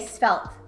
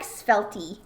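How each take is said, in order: First: The final E is silent, one syllable only. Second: The final E is pronounced as an extra syllable. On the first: "The E at the end is silent. ... I said it right" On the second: "but I like I like Svelty"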